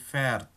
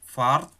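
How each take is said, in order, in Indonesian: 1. Vokalnya berubah menjadi bunyi seperti 'e'. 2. Vokalnya adalah bunyi 'a' terbuka yang biasa. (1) "tetapi fährt" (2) "bukan fart pada er, sie, es"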